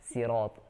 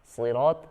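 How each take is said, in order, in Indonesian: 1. Bunyi s-nya ringan dan biasa. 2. Bunyi s-nya berat dan emfatis. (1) "dibaca sin" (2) "huruf shad"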